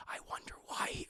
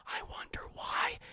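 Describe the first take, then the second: First: Barely audible whisper; softer whisper. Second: Sly whispered aside; hushed knowing jab. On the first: Repeating the jab to chat, almost silent. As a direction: hush it even further. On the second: Teasing chat in a conspiratorial whisper. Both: Real, not acted. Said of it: "unvoiced whisper".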